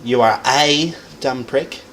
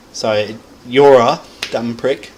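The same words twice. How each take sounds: First: "a" stretched and lifted, slow line; slow delivery with weight on "a"; stress on A. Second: "you're" said loud and slow; slow sentence weighted on "you're"; stress on YOU'RE. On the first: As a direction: lean on the little word "a". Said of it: "Still emphasizes that you are a dumb prick". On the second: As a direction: hit "you're" hard. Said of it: "Emphasize that you are one". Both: Shown as a demonstration.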